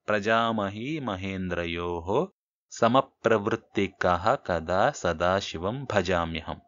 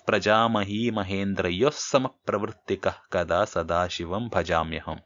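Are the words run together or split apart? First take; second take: split; joined. First: The words are said separately, split apart. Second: The words are run together without breaks. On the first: "విడదీస్తే ఇలా కూడా చదవచ్చు" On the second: "కలిపి చదివితే ఇట్లా ఉంటుంది"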